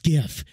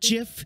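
First: The word begins with a hard G sound. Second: The word begins with a J sound. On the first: The speaker calls it right. "It is GIF" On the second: The speaker calls it wrong. "not GIF. GIF's a peanut butter"

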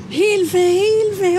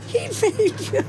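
First: The cry for help is shouted loudly. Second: The cry for help is said quietly. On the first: "war schon lauter" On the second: "wenn Sie so leise geschrien haben"

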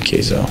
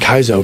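First: The first syllable sounds like 'kay'. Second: The first syllable sounds like 'kai'. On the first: This is how the owner says the name. The speaker calls it right. "I'm like" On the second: This is how other people say the name. The speaker calls it wrong. "everyone's like"

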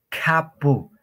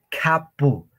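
Both takes have the same delivery.

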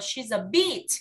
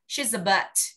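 First: The vowel in 'bit' is long and tense. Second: The vowel in 'bit' is short and relaxed. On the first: The speaker calls it wrong. "Không phải là y dài đâu nhá" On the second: The speaker calls it right. "nó là âm y ngắn ý"

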